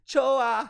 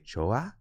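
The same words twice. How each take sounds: First: It is said as a statement, falling. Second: It is said as a question, rising.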